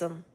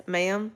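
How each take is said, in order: First: "'em" clipped from ma'am to a short em; Texas drawl. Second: Said in the usual way. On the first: Shown as a demonstration. Chiropractor showing the Texas way, "'em" shortened. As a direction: swallow the ma of "'em", just em. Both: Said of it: "ma'am is yes, 'em".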